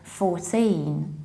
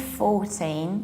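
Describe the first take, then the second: First: The stress is on the second syllable. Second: The stress is on the first syllable. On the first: The speaker calls it right. "you need to stress the ending teen" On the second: The speaker calls it wrong. "then it sounds like forty"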